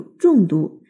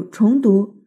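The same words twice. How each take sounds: First: 重读 with a falling zhòng; 重读 read as zhòngdú. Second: 重读 with a rising chóng; 重读 read as chóngdú. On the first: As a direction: say 重读 as zhòng dú, the heavy reading. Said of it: "重读就是读得重一点". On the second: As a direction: say 重读 as chóng dú, the repeat reading. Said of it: "重读就是回头再读". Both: Shown as a demonstration.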